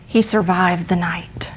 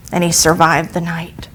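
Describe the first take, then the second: First: Hushed whisper. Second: Said in the usual way. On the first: A narrator's reading. Dramatic turn in told story.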